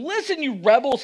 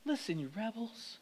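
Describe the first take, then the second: First: The line is shouted loudly and angrily. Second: The line is said calmly and quietly.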